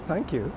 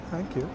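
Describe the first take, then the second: No difference in how they are said.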